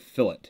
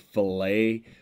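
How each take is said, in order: First: Pronounced the way a rounded design edge is named. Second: Pronounced the way a cut of meat is named. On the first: It names a rounded edge in a design. "in machining and three D design, that's called a fillet" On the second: It names a boneless cut of meat. "if you go to the meat counter at the store, it's called a fillet"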